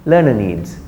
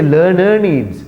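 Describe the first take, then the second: First: LEARNER NEEDS with a short schwa ending LEARNER; lower, falling LEARNER NEEDS, second vowel reduced; correct pronunciation. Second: LEARNER NEEDS with second vowel of LEARNER long and full; wrong pronunciation. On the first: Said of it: "Short a sound is there". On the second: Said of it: "We don't say learner needs". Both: Shown as a demonstration.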